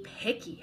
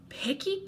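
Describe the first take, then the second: First: "picky" whispered, no voice at all. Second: A high, rising whine on "Picky"; "Picky" pitched high and rising, like a complaint. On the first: Monster grumbling to the kid, whispered. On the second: Monster complaining to the kid, high rising whine. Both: A narrator's reading. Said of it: "Herbert complained".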